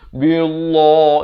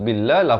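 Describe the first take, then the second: First: The L sound is heavy and thick. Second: The L sound is light and thin. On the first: The speaker calls it wrong. "itu tebal, salah" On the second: The speaker calls it right. "di sini dibaca nipis"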